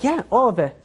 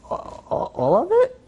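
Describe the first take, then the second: First: Said in the usual way. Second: Stammered whisper leaping to high pitch; shaken disbelief. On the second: Retold or imitated. Collector handed the fat envelope, shaken disbelief. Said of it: "he's starting to shake".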